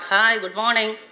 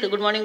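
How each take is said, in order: First: It is said warmly and enthusiastically. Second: It is said flatly, like a routine.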